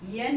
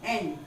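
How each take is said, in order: First: It begins with a 'y' glide before the vowel. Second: It begins directly with the vowel, no glide. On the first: The speaker calls it wrong. "कई लोग इसको गलत pronounce करते हैं, इसको कहते हैं येन. येन नहीं" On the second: The speaker calls it right. "This letter is called एन"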